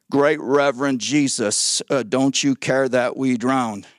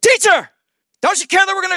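First: Mock-reverent, slow and low address; Pastor Peter. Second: High, loud mock panic; acted panicked cry. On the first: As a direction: pretend an unhurried, over-polite plea in a low voice. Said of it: "Pastor Peter came over and said". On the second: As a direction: cry out for help as if drowning, hammed-up. Acting out drowning disciples' panicked plea.

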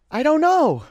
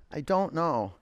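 First: High squeal. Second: Said in the usual way. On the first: Acted. Repeats phrase in sudden squeal.

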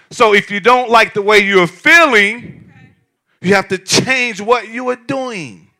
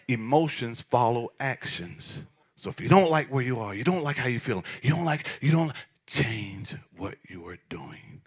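First: Preached loud. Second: Dropped to a whisper. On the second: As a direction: let the point land in a hush. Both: Shown as a demonstration. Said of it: "I'm gonna say it again".

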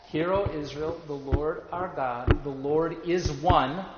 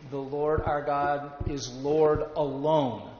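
First: Slow reading landing firmly on "one", pitch held up at the end; stress on ONE. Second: Slow, spaced reading with "alone" drawn out and falling; stress on ALONE. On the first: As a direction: make "one" the point of "the Lord is one". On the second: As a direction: set "Lord alone" apart as the alternative. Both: Shown as a demonstration. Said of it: "do you hear the difference between those two".

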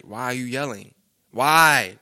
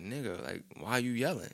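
First: Why? suddenly shouted much louder; a hammed-up yell back at mom; mock yell back. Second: Muttered under the breath, much softer; quiet retort. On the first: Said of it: "that'll get me upset". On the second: Retold or imitated. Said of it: "I'm like".

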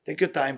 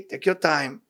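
First: Softer and more tender the second time; softer gentle repeat. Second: Said in the usual way. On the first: Acted. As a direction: ease it out like a patient father. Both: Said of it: "Say, "Okay".

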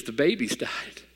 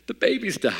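First: Soft, slow tearful imitation of the wife; whisper-soft, slow mock sob of the wife; imitating wife crying. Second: High wailing imitation of the wife; imitating wife wailing. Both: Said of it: "she is just crying".

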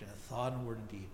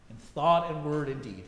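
First: Softer, hushed echo of the prayer line; penitent's quiet repeat. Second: Said in the usual way. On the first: Retold or imitated. Penitent man repeating the minister's prayer on the phone, hushed. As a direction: repeat it back low, like a man weighed down by guilt. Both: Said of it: "And he repeated".

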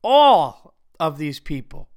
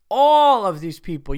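First: "all" dragged out long and loud, slow; slow stress on all. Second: "All" hit loud, at normal pace; stress on all. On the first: A host calling out the audience, slow, loud "all". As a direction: lean hard on "all of these people". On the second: A host repeating the callout, loud "All". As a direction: punch "All" again, quicker. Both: Shown as a demonstration. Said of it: "My unacceptable for the week is".

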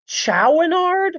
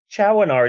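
First: Chouinard said as "shoo-NARD" with a high, unsure rise; unsure pronunciation. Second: Chouinard said as "CHWAN-ard", settled and falling; corrected pronunciation. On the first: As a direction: try Chouinard as a question, voice jumping up. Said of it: "so prestigious that I can't pronounce it". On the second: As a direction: repeat Chouinard the way the friend says it, plainly. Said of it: "oh, you're pronouncing it". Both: Shown as a demonstration.

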